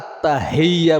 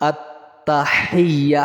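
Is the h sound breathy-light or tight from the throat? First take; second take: breathy-light; throat-tight. First: The h sound is light and breathy. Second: The h sound is pressed tight in the throat. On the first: The speaker calls it wrong. "অনেকে কিন্তু আত্তাহিয়া বলে, হা বলে।" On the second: The speaker calls it right. "হা উচ্চারণের জন্য এই গলার মধ্যে ছাপ দিতে হবে আপনাকে"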